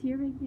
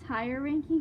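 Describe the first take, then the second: First: The first word rhymes with fear. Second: The first word rhymes with fire. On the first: "everyone on YouTube and BookTube, they're always like" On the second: "I call it tire ranking because that's kind of how it's spelled"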